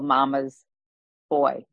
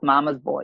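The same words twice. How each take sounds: First: There is a short pause between the words. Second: The two words run together without a pause. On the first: Each boy had a mother devastated by his death. "with a little pause there" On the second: It is an insult calling someone soft or weak. "that also is used as an insult"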